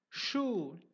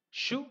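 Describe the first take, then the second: First: Shu with a drawn-out long oo; long shoo. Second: Shu with a short, quick u. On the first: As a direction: stretch the oo of shu. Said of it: "second one is longer". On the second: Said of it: "the first one is a shorter". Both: Shown as a demonstration.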